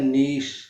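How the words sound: The word ends with an 'sh' sound. This is the British pronunciation. "UK में होता है नीश"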